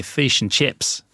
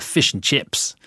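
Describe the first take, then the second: First: "fish and chips" with a plain short i; Aussie fish and chips. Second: "fish and chips" with the i in "fish" stretched toward a long ee, pitched higher; drawn-out vowels. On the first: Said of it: "In Australia, we say fish and chips". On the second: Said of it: "we really draw it out". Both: Shown as a demonstration.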